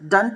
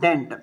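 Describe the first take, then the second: First: The ending has a weak, reduced 'uh' vowel. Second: The ending has a full, clear 'e' vowel. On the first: The speaker calls it right. "డంట్ అండి" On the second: The speaker calls it wrong. "Not డెంట్"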